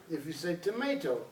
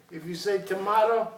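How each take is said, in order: First: "tomato" said to-MAY-to, softer. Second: "tomato" said to-MAH-to, louder. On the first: Teacher showing the other way to say "tomato". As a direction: give "tomato" the may version. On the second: Teacher showing one way to say "tomato". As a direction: give "tomato" the mah version. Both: Shown as a demonstration.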